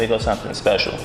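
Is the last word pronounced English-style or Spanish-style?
English-style. The last word has a plain English pronunciation.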